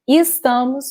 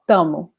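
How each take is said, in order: First: The word keeps its first syllable and final S. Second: The word loses its first syllable and final S. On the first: "instead of saying estamos" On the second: "we just say tamo"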